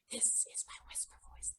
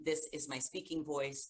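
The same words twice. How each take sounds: First: Whispered demo line; unvoiced whisper for the rhyme. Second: Said in the usual way. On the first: Shown as a demonstration.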